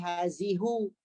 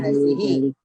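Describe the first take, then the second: First: The word ends in an u vowel. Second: The word ends in an i vowel. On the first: The speaker calls it wrong. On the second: The speaker calls it right.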